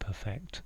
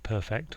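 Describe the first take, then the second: First: The stress is on the second syllable. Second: The stress is on the first syllable. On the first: To make something flawless. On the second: Something is flawless.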